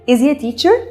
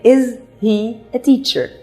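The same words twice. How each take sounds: First: The words blur together in a reduced form. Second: Each word is said fully and clearly. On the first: This is how Americans say it in films. "دي علشان الامريكان ليهم اكسنت معينه فبيقولوها بطريقتهم" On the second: This is what the phrase actually is. "لكن هي is he a teacher"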